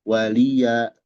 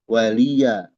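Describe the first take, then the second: Both takes have the same delivery.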